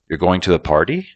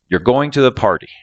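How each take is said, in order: First: It is said with a rising questioning tune. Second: It is said flatly with a falling tune. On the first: It asks whether this is true. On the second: It states a fact.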